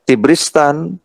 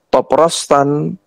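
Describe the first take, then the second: First: Three syllables, starting with an i vowel. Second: Three syllables, starting with an o vowel. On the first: "ini bisa dibaca Tibristan" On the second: "bisa dibaca Toprostan"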